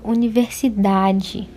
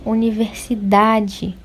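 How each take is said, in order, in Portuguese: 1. A sílaba tônica é da. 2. A sílaba tônica é da.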